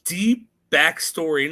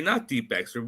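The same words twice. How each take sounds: First: "deep" stretched slow and louder; stress on deep. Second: Said in the usual way. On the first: Shown as a demonstration. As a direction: lean on "deep" and draw it out.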